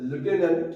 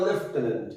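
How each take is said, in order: First: লিউটেন্যান্ট said as spelled, lyoo-ten-ant; spelling pronunciation. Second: লেফটেন্যান্ট said with an f, lef-ten-ant; usual pronunciation. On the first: Teacher reads the word the way its spelling looks, lyoo-ten-ant. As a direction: say লিউটেন্যান্ট with a lyoo sound, as written. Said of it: "উচ্চারণটা". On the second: Teacher gives the pronunciation students actually use, lef-ten-ant. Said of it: "বলি আমরা". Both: Shown as a demonstration.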